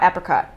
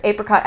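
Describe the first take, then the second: First: 'apricot' as AP-ri-cot; short-A pronunciation. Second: 'Apricot' as AY-pri-cot; long-A pronunciation. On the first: Speed round of two versions, short-A 'apricot'. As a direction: start 'apricot' with the vowel of apple. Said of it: "I say apricot". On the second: Speed round of two versions, long-A 'Apricot'. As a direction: start 'Apricot' with the vowel of ape. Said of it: "speed round". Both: Shown as a demonstration.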